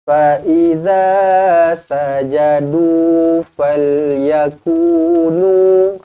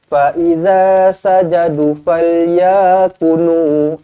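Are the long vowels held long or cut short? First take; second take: held long; cut short. First: The long vowels are held for two beats. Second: The long vowels are cut short. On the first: The speaker calls it right. "Kena jaga harakat eh" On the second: The speaker calls it wrong. "jangan pula ... jangan macam tu"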